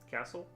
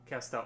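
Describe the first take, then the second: First: It sounds like the ordinary word castle. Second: It ends with a clear 'tell' sound. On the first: The speaker calls it wrong. "Have I been saying it wrong this whole time?" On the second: The speaker calls it right. "that makes sense"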